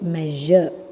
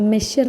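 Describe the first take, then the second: First: The middle consonant is a buzzing zh sound. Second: The middle consonant is a hissing sh sound. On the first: The speaker calls it right. "m plus a plus j plus a" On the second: The speaker calls it wrong. "It's not മെഷർ"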